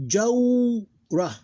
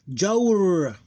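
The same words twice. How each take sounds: First: Jawra high and loud, long "jaw" then short "ra"; diphthong, two syllables. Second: Jawr drawn out loud and high, closed on R; sukoon ending. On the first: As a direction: glide through "jaw" in jawra, then add "ra". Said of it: "that's a diphthong". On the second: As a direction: glide long through Jawr, no final vowel. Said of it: "we read it like this". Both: Shown as a demonstration.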